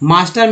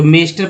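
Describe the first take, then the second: First: The first vowel sounds like 'ah'. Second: The first vowel sounds like 'ay'. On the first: The speaker calls it right. "मास्टर में ए का उच्चारण आ हुआ है" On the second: The speaker calls it wrong. "मेस्टर पढ़ देंगे, जो गलत"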